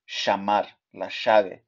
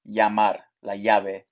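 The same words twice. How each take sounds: First: The double L sounds like sh. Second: The double L sounds like y. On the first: "in Argentina or Uruguay is pronounced sh" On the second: "in most countries, the double L is pronounced the y"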